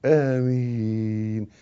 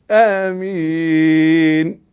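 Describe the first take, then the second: First: Softer, lower آمين, slowly drawn; correct amen. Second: آمين dragged very long, rising at the end; overstretched amen. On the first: Teacher correcting the overdone amen, softer low آمين. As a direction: ease آمين out gently with a long ee. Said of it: "لا،". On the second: Teacher showing the mistake, آمين with very long drawn ending. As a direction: hold the last ee of آمين far too long, at full voice. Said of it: "مش". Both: Shown as a demonstration.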